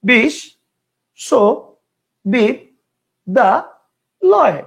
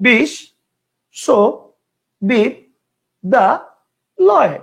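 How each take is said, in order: First: The word is broken into five separate chunks. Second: The same.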